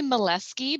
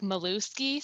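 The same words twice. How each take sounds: First: Molesky said as mo-LES-kee; Molesky, the way the family says it; right pronunciation. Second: Malusky said as ma-LUS-kee, the way it is read; Malusky, how the spelling suggests it; spelling pronunciation. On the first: Nurse teaching students her name, Molesky said as mo-LES-kee. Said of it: "I say Molesky". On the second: Nurse showing how her name gets misread, Malusky. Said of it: "it kinda looks like Malusky". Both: Shown as a demonstration.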